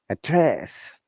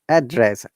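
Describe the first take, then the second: First: The pitch goes from low to high. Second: The pitch goes from high to low. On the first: It is used as a verb. "down to upper or falling to rising" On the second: It is used as a noun. "upper intonation to down intonation"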